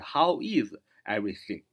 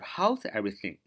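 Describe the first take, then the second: First: 'How is' is said as two full words. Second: 'How is' is linked into one syllable 'how's'. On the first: "就是How is everything?" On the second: "连读就是"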